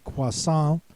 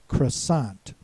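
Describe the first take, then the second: First: The final T is silent in this version. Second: All consonants are sounded, with an unusual vowel. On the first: "even a little more French and say croissant, in which the T becomes silent" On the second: "neither has the oi sound as in English or the wa sound as in French"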